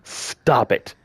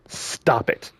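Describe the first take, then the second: First: Said in the usual way. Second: Whispered plea. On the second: Real, not acted. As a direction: drop to a whisper on "Stop it.". Repeating a plea to harassers.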